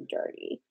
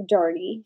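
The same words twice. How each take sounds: First: A hushed, unvoiced repeat; softer whispered echo. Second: Said in the usual way. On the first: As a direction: drop to a whisper on the word. Repeats the word in a hush.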